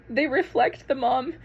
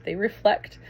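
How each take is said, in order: First: Higher, slower, choked with emotion; getting emotional. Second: Said in the usual way. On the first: Real, not acted. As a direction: fight back tears, slowly. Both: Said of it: "I told you I was gonna get emotional".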